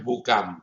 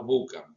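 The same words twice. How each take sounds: First: "bucam" acentuado en la última sílaba, bu-CAM; acento en la última. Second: "bucam" acentuado en la primera sílaba, BU-cam; acento en la primera. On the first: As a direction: stress the second syllable of "bucam". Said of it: "Porque es tónica. No es bucam". ("bucam" como palabra aguda, bu-CAM) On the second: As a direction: stress the first syllable of "bucam". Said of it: "Porque es tónica". ("bucam" como palabra grave, BU-cam) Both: Shown as a demonstration.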